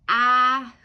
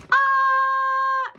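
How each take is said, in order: First: Loud, fuller "ah", moderately raised pitch; loud scream. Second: High, loud drawn-out "ah"; feminine shout. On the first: Showing how they would scream, loud passionate shout. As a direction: belt out a passionate "ah". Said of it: "really loudly". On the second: Performing a note they wrote, high feminine shout. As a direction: shriek a long, high-pitched "ah". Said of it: "That's just so feminine". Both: Shown as a demonstration.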